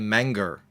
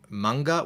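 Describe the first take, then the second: First: The word ends with an added R sound. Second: The word ends in a plain vowel, no R. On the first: "we say manger" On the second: "instead of manga"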